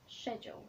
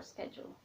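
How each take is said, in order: First: "schedule" begun with a soft sh sound; "schedule" opening on sh, as in shed; schedule with "sh" start. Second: "schedule" begun with a hard sk sound; "schedule" opening on sk, as in sketch; schedule with "sk" start. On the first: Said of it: "American will say sh". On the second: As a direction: say "schedule" as SKED-jool. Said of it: "or schedule". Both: Shown as a demonstration.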